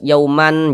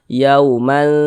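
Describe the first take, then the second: First: The final n is pronounced fully and clearly. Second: The final n is concealed, nasalized and held. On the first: The speaker calls it wrong. "n-nya tuh jelas yauman, jangan" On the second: The speaker calls it right. "tapi dibaca yauman"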